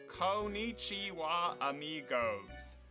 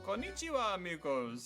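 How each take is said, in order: First: It is said in a thick American accent. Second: It is said without a thick American accent.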